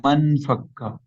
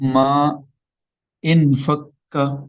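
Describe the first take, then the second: First: The two words are run together as one. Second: The two words are said separately.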